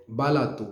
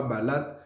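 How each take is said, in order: First: "balato" with the last vowel sounded as "oo"; three-syllable "balato", final vowel kept; corrected final O. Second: "balate" stopped on the T, no final vowel; two-syllable "balate", ending hard on T; wrong, O dropped. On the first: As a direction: say "balato" as ba-LA-too. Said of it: "le mot a O à la fin". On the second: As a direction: say "balate" as ba-LAT. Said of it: "c'est pas balate". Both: Shown as a demonstration.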